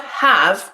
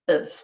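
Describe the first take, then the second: First: The vowel is full and strong. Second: The vowel is reduced to a weak schwa. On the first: "instead of the strong vowel sound" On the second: "we use the weak vowel sound, the schwa"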